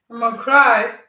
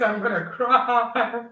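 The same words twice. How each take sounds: First: Louder, playful mock wail. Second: Said in the usual way. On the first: Real, not acted. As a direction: cry out in jokey despair.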